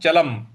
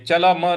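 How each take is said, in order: First: The word ends on a bare m sound. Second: The final m is followed by a full vowel. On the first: The speaker calls it right. "इसको हम चलम बोलेंगे" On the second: The speaker calls it wrong. "चलम नहीं बोलेंगे, चलम पूरा नहीं बोलना है"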